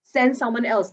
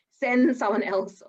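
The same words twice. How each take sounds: First: Said in the usual way. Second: "Send someone else" slowed right down, SEND leaned on; "Send someone else" spoken slowly with the weight on "Send"; slow insistent repeat. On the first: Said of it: "So get calm". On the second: Shown as a demonstration. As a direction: drive the point home slowly on "Send".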